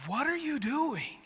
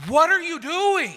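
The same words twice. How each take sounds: First: Very high, strained squeal at normal volume; hammed-up frustration, held back from a yell; dialled-down exasperation. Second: Very high, loud mock-horrified yell; hammed-up exasperated dad shriek; frustrated outburst. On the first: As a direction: squeak it out, reining in the outburst. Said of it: "maybe we can dial this down just a little bit". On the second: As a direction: yell it high, like a dad facing a huge mess. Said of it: "my face in that moment was immediately".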